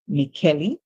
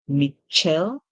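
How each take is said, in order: First: An extra vowel is sounded at the end. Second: The middle consonant is a soft sh sound. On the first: "some persons would even pronounce the E at the end" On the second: "C H can make the ch sound"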